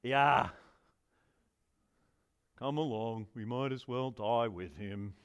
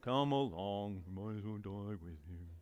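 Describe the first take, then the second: First: Low, slow gloomy donkey voice; Eeyore voice. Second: Eeyore voice. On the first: Preacher voicing Thomas as gloomy Eeyore. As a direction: drag it out like a mopey donkey. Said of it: "That's my Eeyore voice". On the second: Preacher reads Thomas again in deep Eeyore drone. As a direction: sigh it out like a hopeless donkey. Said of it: "Can you read it with an Eeyore voice?". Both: Acted.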